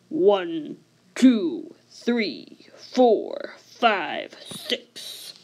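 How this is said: The counting is spoken in a low voice. These numbers count the denominator. "in a low denominator voice"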